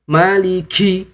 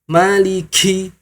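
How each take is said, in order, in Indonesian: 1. Bunyi k-nya diucapkan dengan hembusan napas yang kuat. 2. Bunyi k-nya diucapkan dengan hembusan napas yang kuat.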